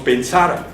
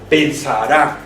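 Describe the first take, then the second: First: The stress is on the middle syllable. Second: The stress is on the last syllable. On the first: The speaker calls it wrong. "tampoco decimos pensar" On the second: The speaker calls it right. "el sonido fonético está en la última sílaba"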